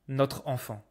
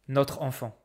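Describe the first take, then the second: The two takes are said the same way.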